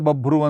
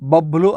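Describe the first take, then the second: First: The word is said with an R sound. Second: The word is said with an L sound. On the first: "ರ ಇದ್ದಲ್ಲಿ ಲ ಉಚ್ಚಾರಣೆ ಮಾಡಬಹುದು" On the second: "ಲ ಇದ್ದಲ್ಲಿ ರ ಉಚ್ಚಾರಣೆ ಮಾಡಬಹುದು"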